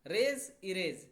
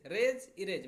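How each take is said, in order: First: रेज, erase said slowly and loudly; रेज, erase stretched out for the class; slow drill. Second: Said in the usual way. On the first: Shown as a demonstration. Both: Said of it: "erase मतलब मिटा देना".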